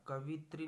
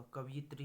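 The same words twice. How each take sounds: First: कवित्री in three syllables; wrong form. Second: कवियत्री with added 'yi' before 'tri'; correct form. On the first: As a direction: say कवित्री with no 'y' sound. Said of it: "नहीं होगा". (कवित्री, बीच में 'य' के बिना) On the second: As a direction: give कवियत्री its extra 'y' syllable. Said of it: "होगा". (कवियत्री, बीच में 'यि') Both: Shown as a demonstration.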